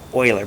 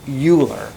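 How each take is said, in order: First: The name is said in a French-style way. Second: The name is read as English spelling suggests. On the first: The speaker calls it right. "it's pronounced like this, Euler ... but it's French" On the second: The speaker calls it wrong. "it's not Euler"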